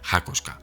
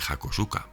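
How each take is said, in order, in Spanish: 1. La vocal central se omite, así que son tres sílabas. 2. Se pronuncia cada vocal, así que son cuatro sílabas. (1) "En japonés sería algo así como Hakoska" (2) "eso está mal dicho"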